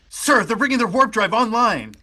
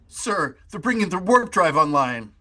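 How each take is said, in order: First: It sounds agitated and restless. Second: It sounds intimidated and cowed.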